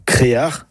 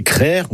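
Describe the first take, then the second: First: Créar in two syllables, é-a; North Finistère pronunciation. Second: Crère in one syllable, open e; Breton pronunciation. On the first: Teacher names both forms of the word, North Finistère pronunciation. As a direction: say créar with both vowels, throaty ending. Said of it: "une prononciation plus du Nord Finistère". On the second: Teacher names both forms of the word, Breton pronunciation. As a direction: say crère with a throaty ending. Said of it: "la bonne production est crère ou créar". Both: Shown as a demonstration.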